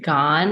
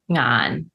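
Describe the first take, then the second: First: The name begins with a hard g sound. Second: The name begins with an ng sound. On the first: This is the Malaysian dialect form from Fujian. "In Malaysia, it's pronounced like" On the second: This is the Cantonese form. "Cantonese, it's"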